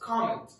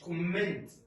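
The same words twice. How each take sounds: First: The first vowel is an open ah sound. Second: The first vowel is a rounded oh sound. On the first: The speaker calls it right. "It's comment" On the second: The speaker calls it wrong. "مش comment"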